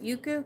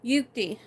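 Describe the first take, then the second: First: The name ends with an 'oo' sound. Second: The name ends with a 'tee' sound. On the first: The speaker calls it wrong. "Is that how you say it?" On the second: The speaker calls it right. "It's an I at the end"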